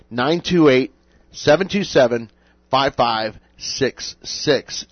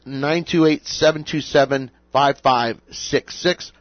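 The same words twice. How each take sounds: First: The number is said more slowly. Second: The number is said quickly.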